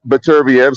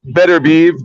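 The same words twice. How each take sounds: First: Beterbiev said as "Beh-TUR-bee-ev"; mistaken pronunciation. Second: Beterbiev said as "Better-beev"; correct pronunciation. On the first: Boxing pundit showing the name he used, mistaken pronunciation of Beterbiev ending "bee-ev". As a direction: split the end of Beterbiev into "bee-ev". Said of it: "It is Beterbiev". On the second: Boxing pundit passing on a native speaker's correction, correct pronunciation of Beterbiev as "Better-beev". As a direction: end Beterbiev on one syllable, "beev". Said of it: "not Beterbiev". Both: Shown as a demonstration.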